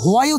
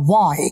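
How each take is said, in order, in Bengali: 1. শব্দটি 'w'-এর আগে একটি শ্বাসযুক্ত 'h' দিয়ে শুরু হয়। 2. শব্দটি একটি সাধারণ 'w' ধ্বনি দিয়ে শুরু হয়। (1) "ও কিন্তু হোয়াই উচ্চারণ করলো না" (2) "ও বললো ওয়াই"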